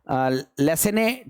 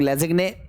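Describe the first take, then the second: First: The name is said without a g sound. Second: The name is said with a g sound. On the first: "लेसेने test हम लोग कहते हैं" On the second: "कुछ लोग लेजिग्ने pronounce करते हैं"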